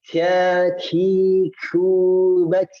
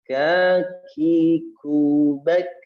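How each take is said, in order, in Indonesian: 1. Bunyi k disertai hembusan napas yang berat. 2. Bunyi k hanya disertai sedikit hembusan napas. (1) "Bukan kaki kubak, berlebihan" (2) "hanya sedikit saja"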